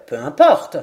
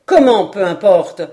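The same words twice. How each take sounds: First: Low, matter-of-fact dismissal; serious dismissal. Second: Loud, incredulous echo; indignant astonishment. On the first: Glenarvan dismissing which Indies, very serious. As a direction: wave the point away in earnest. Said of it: "avec le plus grand sérieux". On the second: Paganel protesting at Glenarvan's remark, indignant astonishment. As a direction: throw the words back in protest. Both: A narrator's reading.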